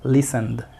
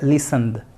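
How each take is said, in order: No difference in how they are said.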